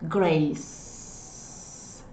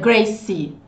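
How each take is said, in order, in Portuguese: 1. A palavra termina no som de consoante. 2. A palavra termina com um som de vogal acrescentado. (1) "Termina com C aí. Grace. Esquece o E" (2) "Não é Gracie"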